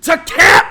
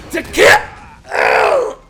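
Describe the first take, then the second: First: Loud high scream. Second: High, loud, breathy battle cry; voice actor scream. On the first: Shown as a demonstration. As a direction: belt it out at full volume. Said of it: "let me try that again". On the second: Retold or imitated. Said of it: "how do the voice actors do it".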